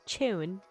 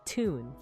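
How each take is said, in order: First: It begins with a ch sound. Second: It begins with a plain t sound. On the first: "in British, it's tune" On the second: "the T like in tune, because I'm American"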